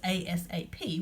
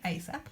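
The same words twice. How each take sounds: First: Each letter is said separately. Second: It is said as one word. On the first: It is an initialism. "if you just read each of the letters" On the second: It is an acronym. "if you pronounce this ASAP, which some people do"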